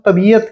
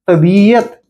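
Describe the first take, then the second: First: The vowel after 'b' is short. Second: The vowel after 'b' is long. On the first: The speaker calls it wrong. "जैसे हमसे एक गलती हो जाती है, हम तबीयत कहते हैं" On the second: The speaker calls it right. "सही शब्द क्या है, तबीयत, यानी ब में बड़ी की मात्रा"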